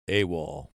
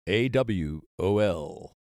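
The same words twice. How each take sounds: First: The letters are spoken together as one word. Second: Each letter is spoken separately, one by one. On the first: This is how it was said from the Second World War on. "the initials of the acronym become a word" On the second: This is how it was said in the First World War. "they pronounced the initials AWOL"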